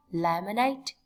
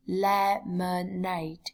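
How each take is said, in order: First: Said in the usual way. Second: "lemonade" slowly broken into le-mo-nade; slow syllable-by-syllable. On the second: Shown as a demonstration. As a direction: draw out each syllable of "lemonade". (đọc chậm "lemonade", tách từng âm tiết) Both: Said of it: "lưu ý cách phát âm".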